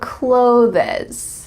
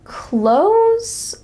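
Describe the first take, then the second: First: It is said differently from the word close. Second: It is said just like the word close. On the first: The speaker calls it wrong. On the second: The speaker calls it right.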